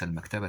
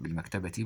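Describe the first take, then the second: First: المكتبة ending in a short -ta; wrong fatha ending. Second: بالمكتبة تي ending in "-ti"; correct kasra ending. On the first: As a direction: say المكتبة with the final t voiced as "ta". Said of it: "ليس المكتبة بالفتح". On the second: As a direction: say بالمكتبة تي as one word closing on "ti". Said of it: "بالمكتبة تي بالكسر". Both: Shown as a demonstration.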